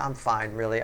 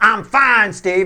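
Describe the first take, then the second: First: It sounds relaxed and genuinely fine. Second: It sounds tense and annoyed.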